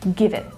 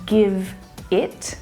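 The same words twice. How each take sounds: First: The two words run together smoothly. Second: The two words are said separately. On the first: The speaker calls it right. "linking to the ones that follow that are vowel sounds" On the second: The speaker calls it wrong. "instead of"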